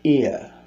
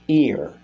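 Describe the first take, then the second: First: The final R sound is dropped completely. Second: The final R sound is clearly pronounced. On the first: "they will say ear" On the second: "instead of saying uh"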